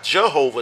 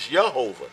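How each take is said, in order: First: Jehovah with a J sound at the start; common English pronunciation. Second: Yehovah with a Y sound at the start; original Hebrew pronunciation. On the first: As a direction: say "Jehovah" opening on the English J, as in jam. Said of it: "His name is not Jehovah, technically". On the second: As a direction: say "Yehovah" opening on a Y, as in yes. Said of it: "There were no J's back in the day". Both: Shown as a demonstration.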